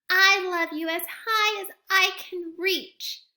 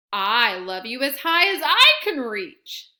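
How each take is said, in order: First: High, loud little hare stretching up; straining upward, eager and small; little hare boasting as high as he can reach. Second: Loud big hare voice, near the usual pitch; fond grown-up echo, bigger and bolder; big hare topping the little one's reach. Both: Acted.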